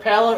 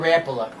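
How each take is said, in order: First: Rapala with stress on the middle syllable; ruh-PAL-uh pronunciation. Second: Sung, Rapala with stress on the first syllable; sung, say Rapala as RAMP-uh-luh; RAP-uh-luh pronunciation. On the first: Asking co-host which lure name is right, ruh-PAL-uh. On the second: Sung, offering co-host the other lure name, RAMP-uh-luh. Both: Shown as a demonstration. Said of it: "Is it Rapala or Rapala?".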